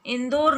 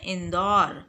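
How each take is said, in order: First: इंदौर said with a closed "o", "indor"; wrong pronunciation. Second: इंदौर with an open "au", "indaur"; correct pronunciation. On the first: Teacher showing pupils the mistake, इंदौर with a closed "o". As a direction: say इंदौर as "in-dor". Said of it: "इंदौर नहीं बोलते". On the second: Teacher giving pupils the right form, इंदौर with open "au". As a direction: open up the last vowel of इंदौर to "aw". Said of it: "बल्कि क्या बोलते हैं". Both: Shown as a demonstration.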